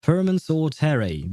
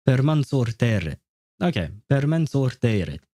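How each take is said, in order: First: "Permensor Terrae" said the English way, Terrae ending in "ray"; English-style reading. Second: "Permensor Terre" with a rolled r, Terre ending in a short "eh"; Latin-style reading. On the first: Repeating Google Translate's English voice for viewers, English pronunciation. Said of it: "That's how she says it with an English accent". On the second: Trying the Latin version for chat, Latin pronunciation. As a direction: echo the translator's Latin reading of "Permensor Terre", "TER-reh". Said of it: "What about the Italian, uh, the Latin one?". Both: Retold or imitated.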